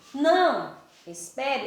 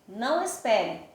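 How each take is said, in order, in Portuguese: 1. Há uma pausa curta depois da primeira palavra. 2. As duas palavras são ditas juntas, sem pausa. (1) "a vírgula está aqui quando eu digo não, espere" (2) "sem a vírgula, eu já vou dizer não espere"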